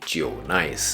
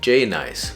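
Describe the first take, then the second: First: The first syllable sounds like 'jiu'. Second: The first syllable sounds like the letter J. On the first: The speaker calls it right. "but actually Jiu Nice" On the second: The speaker calls it wrong. "isn't actually pronounced J Nice"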